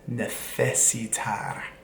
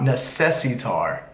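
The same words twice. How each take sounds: First: The c is said with a th sound. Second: The c is said with an s sound. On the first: The speaker calls it right. "C and Z's are a th, like a th" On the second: The speaker calls it wrong. "it's not necesitar"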